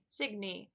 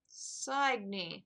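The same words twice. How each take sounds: First: "Signy" with a short i, like sig-nee; trying "Signy" as sig-nee; name tried again. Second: "Signy" with a long i, like sign-ee; trying "Signy" as sign-ee; name tried out. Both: Shown as a demonstration. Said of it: "I think he said her name was".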